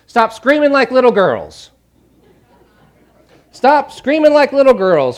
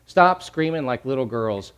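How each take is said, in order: First: High, loud exasperated command; loud rebuke. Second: Said in the usual way. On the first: Acted. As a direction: call out a forceful order to stop. Paraphrases Jesus's rebuke, forcefully.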